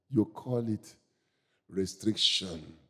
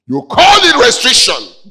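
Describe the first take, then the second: First: Soft, low, slowed preacher's voice; quiet, measured admonishment; hushed reproach. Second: Loud, high cry of accusation; full-voiced pulpit outburst; preacher's shout. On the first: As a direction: drop right down and let it land. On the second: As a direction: shout it at the congregation. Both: Real, not acted.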